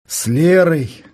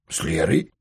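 First: Said in the usual way. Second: Лерой? asked back with the voice rising at the end; surprised question. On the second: A narrator's reading. Denis echoes his friend's words, mildly surprised. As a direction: catch the name, puzzled, and lift it. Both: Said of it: "удивился Денис".

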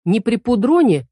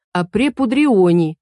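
First: Says "пудроне" the wrong way, without the i sound; mock the wrong "при пудроне" before correcting it; wrong pronunciation. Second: "пудрионе" said slowly and carefully, with the i sound; correct pronunciation. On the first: Youth quotes the witch's mispronunciation of "пудроне". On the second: Acted. Youth slowly corrects the witch: "пудрионе". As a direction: spell out the right "при пудрионе" slowly. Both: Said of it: "надо говорить правильно".

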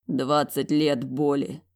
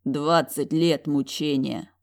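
First: Sighed out. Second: Slow sigh. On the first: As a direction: breathe it out heavily, slowly. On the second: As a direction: let it out slowly with pity. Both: Acted. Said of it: "выдохнул он".

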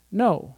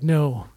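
First: Said in the usual way. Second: A touch lower, defeated "No,". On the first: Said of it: "no actually would be like". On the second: Shown as a demonstration. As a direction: let "No," sink after a long empty night.

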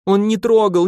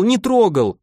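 First: High, loud sobbing protest. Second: High sobbing repeat, stress on не. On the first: Tearful, insistent denial, stress on трогал. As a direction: Marfusha defends Volga from Kuzma, sobbing high. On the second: Tearful insistence, punching не in не трогал. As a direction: Marfusha repeats her denial to Kuzma, sobbing. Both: Acted. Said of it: "всхлипнула Марфуша".

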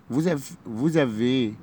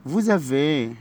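First: Vous avez said slowly, the s of vous as z; slow classroom repeat of vous avez; slowed liaison. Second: Said in the usual way. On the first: Shown as a demonstration. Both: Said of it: "هننطقها زد".

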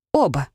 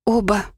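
First: A little firmer admission; mildly emboldened, falling tone; slightly bolder. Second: Mildly guilty little admission; a touch of guilty stammering; guilty babble. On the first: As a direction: say it a bit more bravely, pitch dropping. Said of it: "чуть смелее сказала я". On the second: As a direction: own up sheepishly, voice slightly raised. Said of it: "пролепетала виновата я". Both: A narrator's reading.

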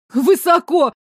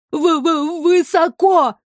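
First: High, loud frightened cry; boy yelling over the wind; shouted. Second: Stuttering, then a high frightened cry; stammer, then cry out in fear; terrified stammered cry; scared cry. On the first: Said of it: "проорал ей в спину пацан". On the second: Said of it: "крикнул он". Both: A narrator's reading.

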